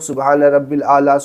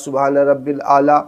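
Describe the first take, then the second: No difference in how they are said.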